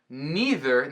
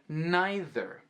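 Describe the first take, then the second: First: It is said in the usual American way. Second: It is said in the way used in England.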